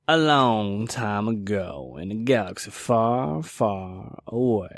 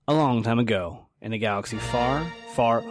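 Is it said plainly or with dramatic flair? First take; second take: dramatic flair; plainly. First: It is said with dramatic flair and style. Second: It is said plainly, without added flair.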